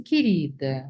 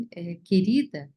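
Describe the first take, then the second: First: "querida" dropped lower, as an empty expression; dismissive querida. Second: Slow, fond "querida" as a term of endearment; affectionate querida. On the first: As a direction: say "querida" lower, as a hollow formula. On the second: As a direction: stretch out "querida" slowly and fondly. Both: Shown as a demonstration. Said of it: "querida tem uma entonação".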